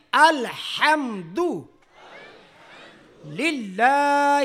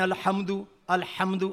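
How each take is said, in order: First: الحمد للہ slow, throaty ح; correct الحمد. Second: الحمد with an Urdu h; wrong الحمد. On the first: (الحمد للہ صحیح ادائیگی) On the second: (الحمد اردو ہ کے ساتھ) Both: Shown as a demonstration. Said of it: "حمد نہیں ہے".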